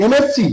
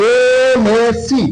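First: Said in the usual way. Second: এমএসসি with the first "e" held long; drawn-out opening vowel. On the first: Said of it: "এম এর উচ্চারণ করতে বলে". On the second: Shown as a demonstration. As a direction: stretch এমএসসি slowly to expose its opening "e" sound. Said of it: "এ আসছে". (এমএসসি-র শুরুর "এ" ধ্বনি টেনে, ধীরে উচ্চারণ)

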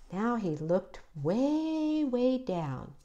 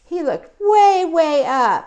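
First: "way, way" stretched softly, falling on "down"; soft, slow storyteller stretching "way, way down"; drawn-out "way, way down". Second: "way, way up" stretched high and loud; loud, high storyteller stretching "way, way up"; drawn-out "way, way up". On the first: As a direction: gently lengthen each "way", then sink on "down". Mirrors looking down in story. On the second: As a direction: send each "way" soaring high and long. Mirrors looking up in story. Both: A narrator's reading.

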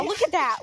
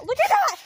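First: Said in the usual way. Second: High excited call. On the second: Real, not acted. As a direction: point it out with a thrill. Pointing out the storm sky.

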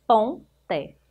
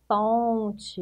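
First: "Ponte" as two parts, pon, pause, te; split into syllables. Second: Said in the usual way. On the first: Shown as a demonstration. Teacher showing pupils the syllables of "Ponte", split apart. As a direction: break "Ponte" after "Pon" with a clear gap. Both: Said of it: "Separando as sílabas".

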